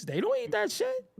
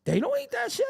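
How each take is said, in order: First: High, sneering put-on voice; high mocking scoff; mock dismissive voice. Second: High, sneering put-on voice; high mocking scoff again; mock dismissive voice. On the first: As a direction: mimic someone scoffing at the food. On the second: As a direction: scoff at the food in a borrowed voice.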